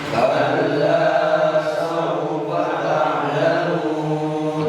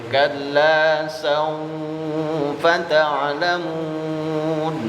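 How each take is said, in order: No difference in how they are said.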